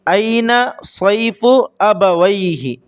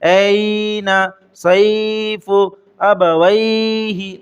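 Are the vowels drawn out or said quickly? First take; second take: quickly; drawn out. First: The vowels are short and said quickly. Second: The vowels are stretched out long. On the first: The speaker calls it right. "आपको जल्दी से पढ़ना है" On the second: The speaker calls it wrong. "कुछ लोग इसको खींच कर पढ़ते हैं"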